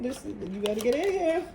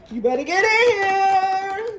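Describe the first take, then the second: First: Said in the usual way. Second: High, loud and slow, hammed-up beckoning; playful loud call. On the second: Tarot reader calling viewers into the portal, loud and hammed-up. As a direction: call them in with big teasing energy.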